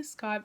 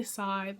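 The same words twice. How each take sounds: First: Scythe with a hard C, starting SK; hard-c pronunciation. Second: Scythe with a silent c, starting on a plain S; silent-c pronunciation. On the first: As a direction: say Scythe as "skythe", sounding the K. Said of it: "I say Scythe". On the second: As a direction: say Scythe as "sythe", no K sound. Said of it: "Some people say Scythe". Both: Shown as a demonstration.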